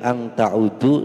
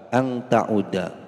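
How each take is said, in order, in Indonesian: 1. Kata terakhir berakhir dengan vokal 'u'. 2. Kata terakhir berakhir dengan vokal 'a'. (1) "Tidak boleh ang ta'udu, salah" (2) "huruf akhirnya dibaca nasab fathah"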